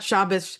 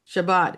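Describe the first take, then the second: First: The word ends with an S sound. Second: The word ends with a T sound. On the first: The speaker calls it wrong. "It's not Shabbos" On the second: The speaker calls it right.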